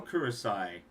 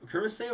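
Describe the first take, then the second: First: Kurosai ending in a "sigh" sound; pronunciation with "-sai". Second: Kurosei ending in a "say" sound; pronunciation with "-sei". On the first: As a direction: say Kurosai with the last syllable like "sigh". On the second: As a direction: say Kurosei with the last syllable like "say". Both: Shown as a demonstration. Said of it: "it's pronounced Kurosei".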